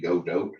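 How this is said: The name is said with a Spanish pronunciation. "the Spanish pronunciation"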